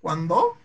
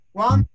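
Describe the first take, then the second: First: "Cuándo" wrongly stressed as cuan-DÓ, rising; acento en DO. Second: "Cuándo" with CUAN high and loud; acento en CUAN. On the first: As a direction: question it with the stress on DO. ("Cuándo" con acento final, cuan-DÓ) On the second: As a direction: punch CUAN, questioning. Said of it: "¿Dónde estará?". ("Cuándo" con CUAN alto y fuerte) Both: Shown as a demonstration.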